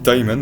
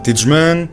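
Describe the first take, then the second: First: The name is said like Tyman. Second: The name is said like Tidgeman. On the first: The speaker calls it right. "on dit Tyman" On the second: The speaker calls it wrong. "techniquement c'est la mauvaise prononciation"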